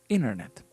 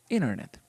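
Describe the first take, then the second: The two takes are said the same way.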